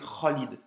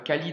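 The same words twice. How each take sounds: First: It starts with a rasping sound from the throat. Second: It starts with a plain French-style consonant. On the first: "quand tu le prononces en arabe" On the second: "Khalid en français"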